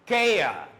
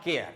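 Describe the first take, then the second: First: Care said "keh-uh", louder and drawn out; silent R. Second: Care with a sounded R at the end; R pronounced. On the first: Teacher correcting the final sound, silent R. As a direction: care ending on an open falling vowel, no R. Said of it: "it should be said as". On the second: Teacher showing what not to say, R pronounced. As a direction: care said the faulty way, ending on R. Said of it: "not care". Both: Shown as a demonstration.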